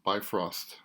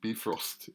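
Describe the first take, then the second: First: The name is pronounced the English way. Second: The name is pronounced the Swedish way. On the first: "in English" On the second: "in Swedish"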